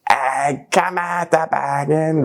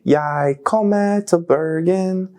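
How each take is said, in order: First: Slow Bergen accent, "Jeg kommer til Bergen" with a rolled, throaty lilt; Bergen dialect. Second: Standard Bokmål "Jeg kommer til Bergen", slow and careful; Bokmål Norwegian. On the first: Rapper showing how Bergen locals say it, Bergen accent. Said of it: "But in Bergen, you say". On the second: Rapper contrasting Bokmål with Bergen dialect, careful demo. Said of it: "Norwegian, you say". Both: Shown as a demonstration.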